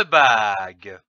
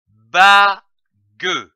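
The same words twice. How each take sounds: First: Said in the usual way. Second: "bague" as a loud ba, pause, then gue; split into syllables. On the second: Shown as a demonstration. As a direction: break "bague" into two separate beats, ba and gue. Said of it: "L'association de ces deux syllabes".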